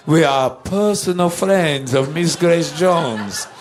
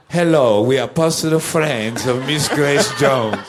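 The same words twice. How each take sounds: First: Put-on slower, higher, emphatic Dietrich-meets-Lugosi accent; insistent put-on [name] accent. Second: Imitating a Dietrich-meets-Lugosi accent; put-on [name] accent. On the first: Musicians insisting to the doorman, in exaggerated borrowed accent. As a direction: insist grandly in the singer's peculiar accent, stretching the words. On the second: Musicians announcing themselves at the back door, in borrowed hybrid accent. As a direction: put on the singer's peculiar accent, a bit grandly. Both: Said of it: "we had to put on the accent".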